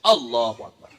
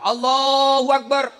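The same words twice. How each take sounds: First: Abu Nawas's takbir. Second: Sung, slow, higher drawn-out "Allahu Akbar"; sung, imam's takbir. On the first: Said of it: "Takbir pertama juga Abu Nawas". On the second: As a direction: chant "Allahu Akbar" like the imam. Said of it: "Imam bertakbir pertama". (sung, takbir imam yang panjang dan lambat) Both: Acted.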